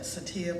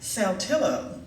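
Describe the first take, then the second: First: The name is said the non-Mississippi way. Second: The name is said the local Mississippi way. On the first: This is how people outside Mississippi might say it. "some people would probably call that Satia" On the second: This is how locals in Mississippi say it. "but we in Mississippi called it Saltillo"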